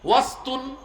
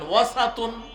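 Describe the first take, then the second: First: No vowel is heard between s and t. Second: A short a vowel is heard between s and t. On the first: "সিনের মধ্যে সাকিন দিয়ে আপনি পড়তে পারেন" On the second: "সিনের মধ্যে জবর দিয়ে পড়তে পারেন"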